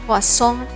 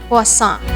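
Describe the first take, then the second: No difference in how they are said.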